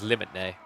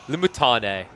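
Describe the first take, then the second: First: The word ends with a separate 'nay' sound. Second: The word ends with a 'tane' sound. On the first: The speaker calls it wrong. "We don't listen to Crackety who says" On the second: The speaker calls it right. "That's how you say it"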